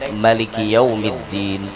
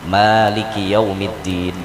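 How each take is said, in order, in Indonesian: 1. Vokal pertama pada Maliki dibaca pendek. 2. Vokal pertama pada Maliki dibaca panjang. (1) "Bila mahnya pendek" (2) "mahnya panjang"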